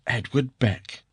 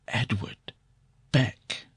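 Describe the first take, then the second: First: It is said in a normal voice. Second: It is said almost in a whisper.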